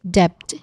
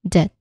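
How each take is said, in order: First: A B sound is pronounced in the middle. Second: No B sound is pronounced; it rhymes with bet. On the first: The speaker calls it wrong. "The silent B is not silent" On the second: The speaker calls it right. "the B sound is silent"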